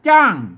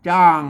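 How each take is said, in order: First: The word is said on a falling tone. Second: The word is said on a low tone. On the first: "ใส่ไม่โทจ้าง" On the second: "ใส่ไม่เอกจ้าง"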